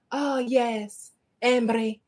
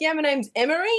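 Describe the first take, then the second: First: Imitated Scottish accent on Emery; lightly put-on Scottish lilt; Scottish lady. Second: Emery said her own way, higher and rising; own usual pronunciation. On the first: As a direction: answer like a Scottish woman savouring the name. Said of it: "when a Scottish person says my last name". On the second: Retold or imitated. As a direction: introduce Emery in the everyday pronunciation, pitched up. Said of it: "And I was like".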